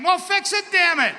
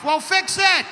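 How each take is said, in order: First: Much higher and louder, fed up shouting; angry loud demand. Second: Much higher and louder, barked order; loud demand. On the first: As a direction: yell it, fully fed up. Mock patient demanding fix again. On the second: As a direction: shout it like an impatient patient. Mock patient demanding fix. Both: Pretend.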